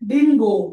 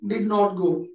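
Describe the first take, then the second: First: It is reduced to din, with no t. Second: It is said in full as did not.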